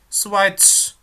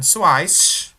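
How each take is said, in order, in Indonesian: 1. Kata ini berakhir dengan bunyi ts. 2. Kata ini berakhir dengan bunyi s biasa. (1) "di belakangnya itu ada T kayak T-nya gitu ya" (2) "Bacanya bukan Schweiz"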